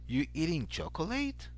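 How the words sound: The voice rises at the end. It asks whether the person is eating chocolate. "place a rising intonation at the end of the sentence"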